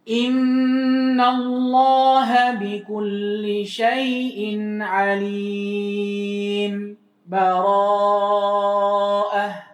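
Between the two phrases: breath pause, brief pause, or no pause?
brief pause. A brief stop without a breath between phrases. "Yang kedua sakta"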